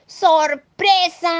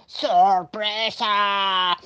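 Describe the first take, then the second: First: High, loud, stretched cheer; slow, ringing party shout; surprise shout. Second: Very drawn-out put-on monster voice; slow monster cheer; monster's surprise call. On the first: Acted. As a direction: call it out high and drawn out.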